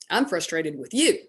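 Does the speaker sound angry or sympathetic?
angry. It is said in an annoyed, accusing tone. The listener is to blame for the frustration. "What did she read?"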